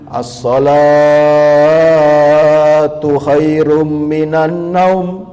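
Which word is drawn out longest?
as-sholatu. The word as-sholatu is drawn out long.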